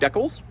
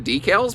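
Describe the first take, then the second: First: The word has a Canadian-style pronunciation. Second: The word has the speaker's usual regional pronunciation.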